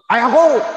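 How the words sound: It is said in a harsh, rough tone. Rude way of addressing one's father. "jadinya kasar"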